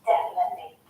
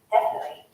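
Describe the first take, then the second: First: Every sound of the word is clearly pronounced. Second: The word is said fast with sounds dropped. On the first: "I'm pronouncing most of the sounds in that word" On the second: "he says it so fast, it's very easy to miss it"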